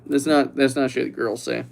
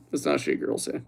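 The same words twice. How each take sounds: First: Said in the usual way. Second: Voiceless whisper; hushed disbelieving whisper; whispered repeat. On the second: Pretend. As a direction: breathe it as an aside. Repeated whisper after plain take.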